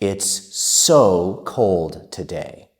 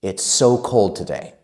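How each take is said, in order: First: It is spoken at a slow, careful pace. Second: It is spoken at a fast, fluent pace.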